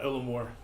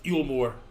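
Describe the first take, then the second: First: The name begins with an 'ill' sound. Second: The name begins with a 'yool' sound. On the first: The speaker calls it wrong. "not Illamore. I've been saying it wrong" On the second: The speaker calls it right. "It's Eulmore"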